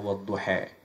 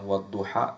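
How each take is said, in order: First: The final syllable ends with an 'e' vowel. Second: The final syllable ends with an open 'a' vowel. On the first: This is a dialect reading from another tribe. "tapi bacanya wadduha" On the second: This is the usual reading. "bukan wadduha"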